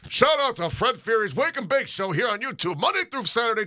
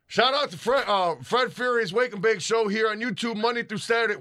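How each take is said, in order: First: It is said in a put-on announcer voice. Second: It is said in a plain, casual speaking voice.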